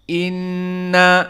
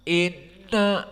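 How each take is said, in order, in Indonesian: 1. Nun ganda bergema jelas lewat hidung. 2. Nun ganda teredam, hidung tertutup. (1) "dan dua harokat ini yang dinamakan dengan gunnah" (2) "jika kita tutup hidung kita, maka nun di sini tidak akan berbunyi"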